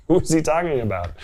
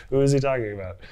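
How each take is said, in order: First: Higher and louder, laughing through it; laughing disbelief. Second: Said in the usual way. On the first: Real, not acted. Laughs, then repeats the question.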